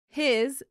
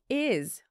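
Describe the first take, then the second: First: The word begins with an h sound. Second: The word begins without an h sound.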